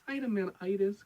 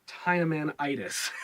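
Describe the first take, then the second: First: Dynamanitis? pitched higher as a baffled question; incredulous. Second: Said in the usual way. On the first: Retold or imitated. Reviewer scoffing at the show's made-up illness name, incredulous. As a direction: repeat Dynamanitis like you can't believe it. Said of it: "I'm like". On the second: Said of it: "the Rangers try to explain that".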